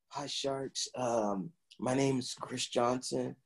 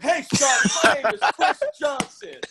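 First: It is said quietly and meekly. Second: It is said loudly and energetically.

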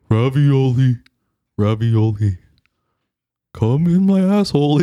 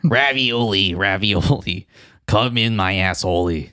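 First: It is said in a Patrick voice. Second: It is said in a Mister Krabs voice.

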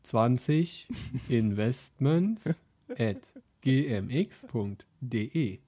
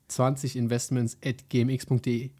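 First: It is said slowly and clearly. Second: It is said quickly.

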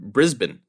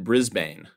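First: It is said the Australian way. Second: It is said the American way. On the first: The speaker calls it right. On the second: The speaker calls it wrong.

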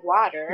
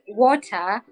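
First: It is said with an American accent. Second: It is said with a Kenyan accent.

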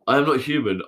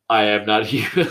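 First: It is said in a normal voice. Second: It is said in a put-on voice. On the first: The speaker calls it right. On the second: The speaker calls it wrong.

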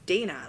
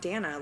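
First: The first vowel sounds like 'Dane'. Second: The first vowel does not sound like 'Dane'. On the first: The speaker calls it right. "it's Dana. Like, clearly it's Dana" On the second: The speaker calls it wrong. "I'm not Dana"

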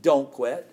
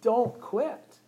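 First: It is said in a mean, harsh tone. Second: It is said in a warm, encouraging tone.

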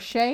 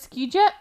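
First: The name begins with an 'sh' sound. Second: The name begins with an 'sk' sound. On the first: The speaker calls it right. "Shea is how you say his name" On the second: The speaker calls it wrong. "I still pronounce it Ski Jet, because it's S-K-J-E-I"

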